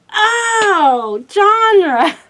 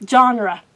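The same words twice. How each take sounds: First: Genre said the French way, "zhahn", a light surprise; surprised correct pronunciation. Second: Put-on Genre said the old wrong way, like "jen-er"; Genre as she used to say it, "jen-ruh"; mispronounced genre. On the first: Retold or imitated. Looking it up and finally hearing it right, surprised pronunciation. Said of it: "I was like". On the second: Shown as a demonstration. Book vlogger showing how she once said it, wrong pronunciation. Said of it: "I did not know it was pronounced genre".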